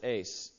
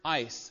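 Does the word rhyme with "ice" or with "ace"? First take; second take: ace; ice. First: The vowel sounds like the one in "ace". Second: The vowel sounds like the one in "ice". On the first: "Some people pronounce it ace" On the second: "That's the Greek word ice"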